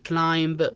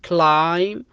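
First: A b sound is heard at the end. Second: The word ends without a b sound. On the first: The speaker calls it wrong. "ما تنطق كلايمب" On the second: The speaker calls it right. "تنطق بحرف سايلنت البي"

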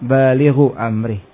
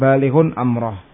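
First: 'Baligh' ends in plain u, with no n. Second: 'Baligh' ends in un, with an n. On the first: The following noun is in the genitive, not governed as an object. "Berarti tidak diamalkan ya" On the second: The participle governs the following noun as its object. "Kalau diamalkan"

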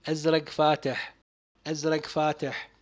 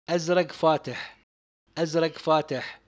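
Both takes have the same delivery.

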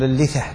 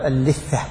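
First: The middle consonant is single. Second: The middle consonant is doubled. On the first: The speaker calls it right. "قل اللثة بالتخفيف" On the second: The speaker calls it wrong. "لا تقول اللثة"

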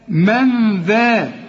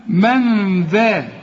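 Both takes have the same delivery.

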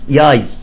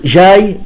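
First: The word begins with a y sound. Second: The word begins with a j sound. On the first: "يقول ياي" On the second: "يقول جاي"

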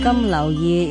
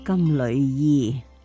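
First: The middle syllable sounds like 柳. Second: The middle syllable sounds like 缕. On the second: "亦都有人读金缕衣"

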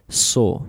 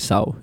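First: The vowel sounds English-like, a long 'aw'. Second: The vowel sounds Spanish-like, like 'sau'. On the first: The speaker calls it right. "You say saw" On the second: The speaker calls it wrong. "you don't say Saw"

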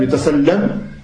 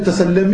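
First: The final m stops bare before a pause. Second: The final m takes an i vowel and links on. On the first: "si tu t'arrêtes" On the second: "si jamais tu enchaînes"

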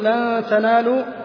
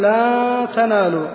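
First: The vowel before the n stays short. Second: The vowel before the n is stretched long. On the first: The speaker calls it right. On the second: The speaker calls it wrong.

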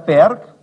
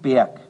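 First: The r sound in the word is pronounced. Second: The r sound in the word is dropped.

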